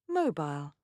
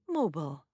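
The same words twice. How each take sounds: First: It is said in a British accent. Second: It is said in an American accent.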